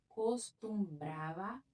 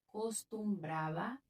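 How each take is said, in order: Both takes have the same delivery.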